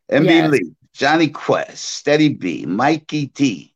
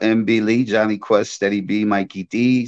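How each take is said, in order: First: The names are said slowly and clearly. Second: The names are rattled off quickly. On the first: The speaker calls it right. "let me slow it down so they can hear it" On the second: The speaker calls it wrong. "Slow down. You sound like you rapping"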